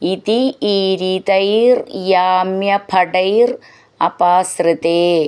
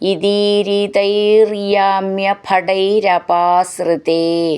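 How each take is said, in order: First: Each word is said separately without linking. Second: The words run together with linked sounds.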